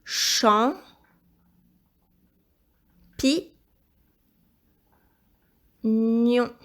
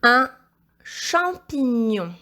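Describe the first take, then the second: First: Isolated syllables with long pauses; syllable-by-syllable dictation. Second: Slow, drawn-out whole word; dictation. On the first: Teacher helping pupil spell champignon, syllable-by-syllable dictation. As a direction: break "Champ. Pi. Nion." into separate, measured beats. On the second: Teacher dictating second word to pupil, slow dictation. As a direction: dictate "Un champignon" slowly as one phrase. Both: Shown as a demonstration.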